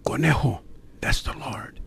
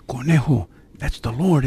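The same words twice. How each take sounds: First: Hushed whisper, barely any voice; soft voiceless whisper of reassurance. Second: Said in the usual way. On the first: Retold or imitated. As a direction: whisper it close to his ear, gently. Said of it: "what Joe Lugo was saying in a whisper". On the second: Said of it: "what Joe Lugo was saying".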